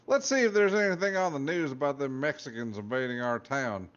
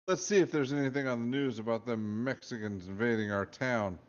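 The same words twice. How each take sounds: First: It is read in a put-on different accent. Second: It is read in the reader's ordinary accent.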